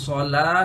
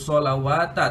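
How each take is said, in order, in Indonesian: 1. Kata itu berakhir dengan ah pendek. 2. Kata itu berakhir dengan wata ekstra. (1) "tapi solah saja" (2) "bukan disebut solawata"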